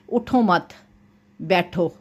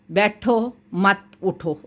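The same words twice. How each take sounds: First: "उठो मत", a clear pause, then "बैठो"; pause placement. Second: Slow "बैठो", then "मत उठो" as one group; shifted pause. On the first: Teacher shows how a stop fixes meaning, pause before बैठो. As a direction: break after मत and set बैठो apart. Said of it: "अगर यहाँ पे वक्फ ना करें". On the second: Teacher shows meaning reversed by wrong stop, मत joined to उठो. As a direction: move the break so मत leans onto उठो. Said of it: "अगर आप वक्फ नहीं करेंगे". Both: Shown as a demonstration.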